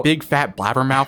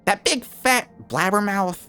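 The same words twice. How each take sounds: First: It sounds let down and disappointed. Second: It sounds bratty and mocking.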